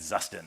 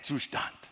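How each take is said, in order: First: The word is pronounced the American English way. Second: The word is pronounced the German way. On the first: The speaker calls it wrong. "I said Zustand because I'm an American" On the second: The speaker calls it right. "You gotta say it Zustand"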